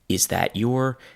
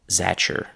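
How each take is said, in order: First: Each word is said fully and separately. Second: 'That your' blends together with a 'ch' sound. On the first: "first you have" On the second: "the t and the y sounds have mixed into a ch sound"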